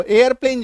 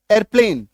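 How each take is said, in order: First: 'एयरप्लेन' with a schwa after the e, "e-ar-plen"; everyday 'एयरप्लेन'. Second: 'एयरप्लेन' as "er-plen", first syllable merged; corrected 'एयरप्लेन'. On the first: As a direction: say एयरप्लेन in two-beat "e-ar" form. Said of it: "जिसको हम लोग बोलते हैं". (आम बोलचाल वाला 'एयरप्लेन') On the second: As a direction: give एयरप्लेन a single "er" at the start. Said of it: "actually में ये क्या है?". (सुधारा हुआ 'एयरप्लेन', "एरप्लेन" जैसा) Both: Shown as a demonstration.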